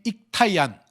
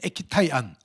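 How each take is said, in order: First: The first syllable ends in a k sound. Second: An extra vowel follows the k sound. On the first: "일본말로 얘기하면 익타이안입니다" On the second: "익이라고 하는 그 뒤에다가 아이자를 하나 넣어서"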